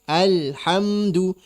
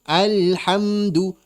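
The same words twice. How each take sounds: Both takes have the same delivery.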